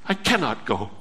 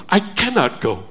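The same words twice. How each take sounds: First: Low hushed plea. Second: Said in the usual way. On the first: Acted. Soul voiced clinging to God.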